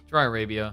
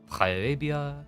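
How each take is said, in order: First: It is said in the speaker's ordinary accent. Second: It is said in a put-on French accent.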